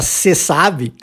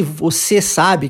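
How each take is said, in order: First: "cê sabe" with the você shortened to cê; casual "cê sabe", dropping the vo; clipped cê sabe. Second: Said in the usual way. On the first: Shown as a demonstration. Teacher showing the everyday spoken form cê sabe. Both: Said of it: "na maioria das vezes a gente fala".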